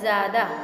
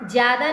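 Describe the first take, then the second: First: The first consonant is a z sound. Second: The first consonant is a j sound. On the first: The speaker calls it right. "ज्यादा में भी ज के नीचे नुक्ता" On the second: The speaker calls it wrong. "ज्यादा नहीं होता"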